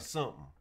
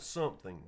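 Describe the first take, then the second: First: The word is pronounced in a reduced, clipped form. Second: The word is pronounced fully and carefully. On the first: The speaker calls it wrong. "I say something, ... I hate that" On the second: The speaker calls it right. "instead of something"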